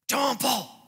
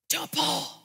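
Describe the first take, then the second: First: It is a stronger, more forceful muffled yell. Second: It is a quiet, muffled shout. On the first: The caller is growing more urgent. "his muffled yell became more intense" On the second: The caller is trying not to wake someone. "he was saying it with that hushed shout"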